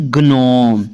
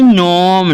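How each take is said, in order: First: Slow ग्नोम with a hard G before the N; wrongly voiced G. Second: नोम, starting straight on the N; silent G. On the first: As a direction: misread it as ग्नोम, G sounded first. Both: Shown as a demonstration. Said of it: "ना कि ग्नोम".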